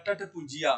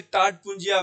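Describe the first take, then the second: First: टट पुंजिया with a short a in टट; first vowel of टट cut short, run into पुंजिया; combined short form. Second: टाट पुंजिया with a long aa in टाट; uncombined long form. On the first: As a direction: say टट पुंजिया as "tat punjiya". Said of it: "वो बनता है". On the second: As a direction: say टाट पुंजिया as "taat punjiya". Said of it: "जो शब्द बनता है वो बनता है". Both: Shown as a demonstration.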